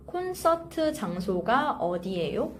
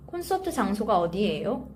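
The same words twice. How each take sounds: First: Careful model phrase. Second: "콘서트 장소가 어디예요?" run together quickly; natural fast phrase. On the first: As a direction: say "콘서트 장소가 어디예요?" carefully for learners. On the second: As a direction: say "콘서트 장소가 어디예요?" at fluent conversational speed. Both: Shown as a demonstration. Teacher models phrase slowly, then fluently.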